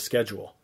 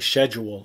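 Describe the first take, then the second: First: It is said with a usual Canadian pronunciation. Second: It is said with a British-style pronunciation. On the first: This is the common usage. "instead of schedule" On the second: This is the old British-derived usage. "some Canadians say schedule"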